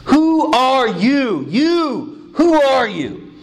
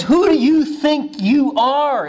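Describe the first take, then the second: First: WHO stretched slow and higher; indignant who are you; emphatic who. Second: Scornful who do you think you are; mock offended religious leaders; indignant challenge. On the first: Retold or imitated. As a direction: lean hard on WHO, slowly. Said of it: "In other words, it's". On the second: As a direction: sneer it, higher and slow. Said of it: "in other words".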